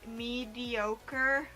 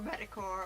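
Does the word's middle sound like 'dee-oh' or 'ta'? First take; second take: dee-oh; ta. First: The middle sounds like 'dee-oh', giving 'mediocre'. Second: The middle sounds like 'ta', giving 'metacore'. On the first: The speaker calls it right. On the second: The speaker calls it wrong.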